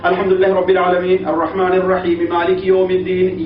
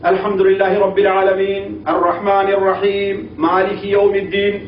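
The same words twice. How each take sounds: First: It is recited faster with shorter pauses between phrases. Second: It is recited slowly with long pauses between phrases. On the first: At this pace a section takes about twenty minutes. "اس طرح نہیں تو" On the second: Even at this pace a section takes only half an hour. "یہ وہ آدمی جو بالکل ٹھہر ٹھہر کر کے پڑھے"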